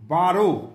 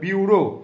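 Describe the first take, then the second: First: The first syllable is a plain 'ba' sound. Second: The first syllable is a 'byoo' sound. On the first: The speaker calls it wrong. "বারো নয়" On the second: The speaker calls it right. "এটা বিউরো"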